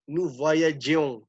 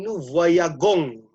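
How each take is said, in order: First: The g is soft, like a zh sound. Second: The g is hard, like in go. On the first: The speaker calls it right. "Maka ditambahkan huruf e" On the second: The speaker calls it wrong. "ini jadi jelek nih"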